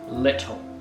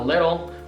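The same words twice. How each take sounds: First: Spoken in a British accent. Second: Spoken in an American accent. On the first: "in the British way it's it's way more often pronounced" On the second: "the American accent they pronounce"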